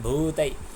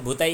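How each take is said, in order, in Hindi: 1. पहला स्वर दीर्घ है। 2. पहला स्वर ह्रस्व है। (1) "भू दीर्घ छ" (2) "भूतै होइन"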